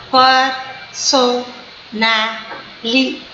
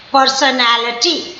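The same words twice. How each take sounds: First: "personality" said slowly, one syllable at a time; slow syllable-count demo of "personality". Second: Said in the usual way. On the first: Shown as a demonstration. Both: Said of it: "it is five syllable word".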